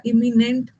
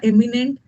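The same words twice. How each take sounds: First: Drawn-out "इमिनेंट", starting on i, not e; confusable-word demo. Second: "एमिनेंट" starting on e, not i; confusable-word demo. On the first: Teacher listing confusable words for students, "इमिनेंट" slowly opened on i. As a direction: say "इमिनेंट" slowly with an opening i sound. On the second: Teacher listing confusable words for students, "एमिनेंट" opened on e. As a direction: say "एमिनेंट" with a clear opening e sound. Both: Shown as a demonstration. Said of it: "confuse word में मैंने आपको तीन word".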